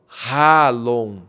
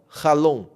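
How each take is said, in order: First: The first vowel is long and slow. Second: The first vowel is short and quick. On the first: The speaker calls it wrong. "Eu não estou lendo assim" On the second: The speaker calls it right. "é um A mais curto, mais rápido"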